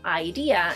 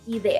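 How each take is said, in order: First: The word is pronounced the English way. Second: The word is pronounced the Spanish way. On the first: The speaker calls it wrong. "pronounce it as it is in English" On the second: The speaker calls it right. "we say idea"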